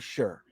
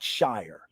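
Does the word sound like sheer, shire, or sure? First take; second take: sure; shire. First: The vowel sounds like the word sure. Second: The vowel sounds like the word shire. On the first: "Sheer or sure?" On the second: "It's not Shire"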